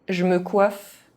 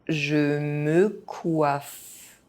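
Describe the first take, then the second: First: It is said fast, with some sounds dropped. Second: It is said at an ordinary speaking pace. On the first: This is how native speakers say it. "fast, as a native speaker would do" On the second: This is the pace learners should use. "at a normal pace"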